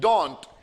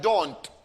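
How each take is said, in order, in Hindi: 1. इसे एक छोटे से अक्षर में समेट दिया जाता है। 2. इसे एक छोटे से अक्षर में समेट दिया जाता है।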